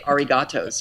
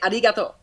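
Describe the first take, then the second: First: The word ends with an added s sound. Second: The word ends on the vowel, without s. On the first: The speaker calls it wrong. "I can't just say arigatos" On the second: The speaker calls it right. "I have to say it right"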